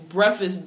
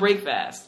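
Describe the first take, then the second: First: The middle is reduced, sounding like brekfus. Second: Both parts, break and fast, are said fully. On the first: The speaker calls it right. "It's breakfast, B-R-E... F-U-S" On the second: The speaker calls it wrong. "It's not break fast"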